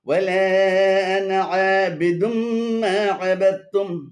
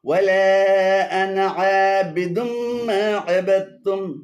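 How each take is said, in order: Both takes have the same delivery.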